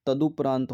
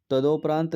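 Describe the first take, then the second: First: तदुपरांत said with u after द, the correct form; correct spelling read out. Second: तदोपरांत said with o after द, marked as wrong; wrong spelling read out. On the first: Teacher gives the correct form, तदुपरांत with u. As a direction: say तदुपरांत with a clear u sound. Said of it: "होता है". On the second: Teacher reads the wrong spelling to the class, तदोपरांत with o. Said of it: "नहीं होता". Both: Shown as a demonstration.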